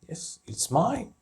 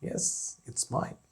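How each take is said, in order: First: Said in the usual way. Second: Whispered answer. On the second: Shown as a demonstration. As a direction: whisper the reply. Teacher repeats example answer twice.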